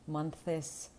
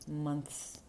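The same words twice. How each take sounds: First: An extra vowel is inserted between th and s. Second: The th glides straight into s without a vowel. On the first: The speaker calls it wrong. "не намагатися вставити голосну між «th» і «с»" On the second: The speaker calls it right. "навчитися переходити без голосних від «th» до «с»"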